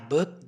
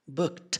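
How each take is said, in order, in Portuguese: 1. O T final se mistura com a próxima palavra. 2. O som do T final é claramente liberado. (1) "como tá juntando com a palavra seguinte, vai ficar tipo assim" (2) "pausadamente, a pronúncia seria booked, literalmente com o som de T"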